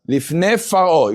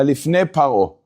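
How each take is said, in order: First: The second word begins with an f sound. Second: The second word begins with a p sound. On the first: The speaker calls it right. "if the words are connected, lifne faro, then then it's always going to be faro" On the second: The speaker calls it wrong. "You're never going to have a lifne paro"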